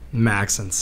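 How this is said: The name is said with an English pronunciation. "That's the English translation to a very unique French name"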